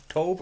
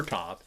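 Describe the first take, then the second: First: "tov" with an O vowel; Greek pronunciation variant. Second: "tav" with an A vowel; alternative Greek pronunciation. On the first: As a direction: say "tov" with a rounded O, not an A. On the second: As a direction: say "tav" with an open A, not an O. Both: Shown as a demonstration. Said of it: "I'm pretty sure I'm pronouncing this right".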